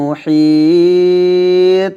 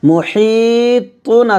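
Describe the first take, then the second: First: The word ends on an echoing consonant. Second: The word ends with an -un ending. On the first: The reading stops at the verse end. "থামলে হবে মুহিত" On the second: The reading continues without stopping. "মুহিতুন আছে"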